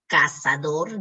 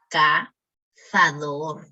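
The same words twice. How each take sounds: First: Said in the usual way. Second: Cazador with th, "cathador"; Spanish z. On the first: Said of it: "En vez de decir cazador". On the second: Shown as a demonstration. Teacher showing the z in cazador: a lisped th. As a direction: say the z in cazador as a th sound. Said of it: "La Z debe ser gagueada".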